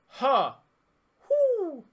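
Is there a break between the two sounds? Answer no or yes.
yes. The two sounds are separated by a break. "can you go back and forth between them?"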